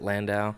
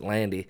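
First: The name ends with an 'ow' sound. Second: The name ends with an 'ee' sound. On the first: This is how most people with the name say it. "other Landaus that obviously pronounce it Landau" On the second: This is how one particular family says it. "his family pronounced it Landy"

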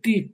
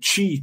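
First: The t is clean without hiss, Northeastern style. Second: The t is hissed like 'chi', São Paulo style.

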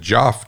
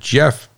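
First: The vowel sounds like the one in 'got'. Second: The vowel sounds like the one in 'get'. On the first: This is how some other people pronounce it. "some people pronounce it Joff" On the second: This is the speaker's own chosen pronunciation. "I'm going to pronounce it Jeff"

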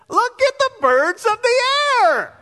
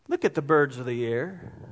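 First: It is said sternly and with exasperation. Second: It is said gently and compassionately.

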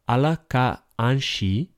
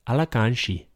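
First: The phrase is said slowly, each word kept separate. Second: The phrase is said fast, with words run together.

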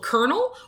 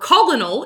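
First: It is said like the word kernel. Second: It is sounded out as spelled, col-o-nel. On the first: The speaker calls it right. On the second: The speaker calls it wrong.

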